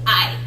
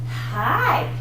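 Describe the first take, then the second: First: The vowel starts with a hard glottal catch. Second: The vowel starts with a breathy h sound. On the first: "I hate to do this. It's painful to me. Sounds a little like this" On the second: "The aspirated puts the little H in front of it"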